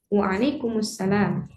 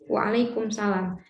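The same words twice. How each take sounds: First: The m carries a vowel linking into salam. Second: The m is closed, with no vowel before salam. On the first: The speaker calls it right. "harokatnya di memnya ini karena ada eh, alif lam, jadi disambungkan, bukan dia sukun" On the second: The speaker calls it wrong. "kita waalaikumsalam. Waalaikumsalam. Nah, itu boleh-boleh saja"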